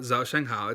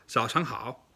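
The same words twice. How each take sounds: First: 早上好 with flat American tones; 早上好 said toneless; wrong tones. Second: 早上好 with crisp native tones; 早上好 with proper tones; correct tones. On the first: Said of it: "It's not 早上好". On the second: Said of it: "it's 早上好". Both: Shown as a demonstration.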